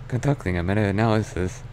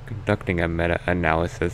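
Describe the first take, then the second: First: The voice sounds open and close to natural. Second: The voice sounds tight, with a closed throat. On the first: The speaker calls it right. "I can do one that's closer to a real voice" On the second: The speaker calls it wrong. "if I close my throat more, it makes it sound different"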